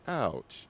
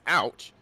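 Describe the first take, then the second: First: It sounds soft and gentle. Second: It sounds sharp and pained. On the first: It reacts to a gentle caress. "But if caressing her face, that's ouch" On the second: It reacts to a hard pinch. "If I said pinch her pinches her hard, then that's ouch"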